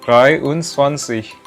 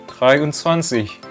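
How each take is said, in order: No difference in how they are said.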